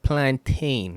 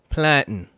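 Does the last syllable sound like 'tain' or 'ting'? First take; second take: tain; ting. First: The last syllable sounds like 'tain'. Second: The last syllable sounds like 'ting'. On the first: The speaker calls it wrong. "it's not plantain" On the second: The speaker calls it right. "it's planting"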